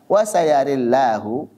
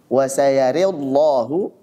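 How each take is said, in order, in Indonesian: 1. Vokal miring setelah r, l tipis. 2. Vokal miring setelah r, l tebal. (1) "ra-nya imalah dan lamnya tipis" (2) "ra-nya imalah kemudian lamnya tebal"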